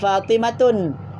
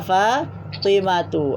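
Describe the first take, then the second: First: The name ends with an added n sound. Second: The name ends on a vowel without n. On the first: The speaker calls it wrong. "tidak boleh baca Fatimatun" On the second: The speaker calls it right. "Baca Fatimatu"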